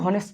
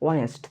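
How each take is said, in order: First: The word begins with an h sound. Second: The word begins with a vowel sound. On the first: The speaker calls it wrong. "এটা কিন্তু হনেস্ট না" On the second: The speaker calls it right. "এফ কিন্তু উচ্চারিত হয় নাই"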